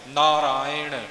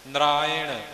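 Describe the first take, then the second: First: The middle is a long 'aa' then 'i'. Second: The same.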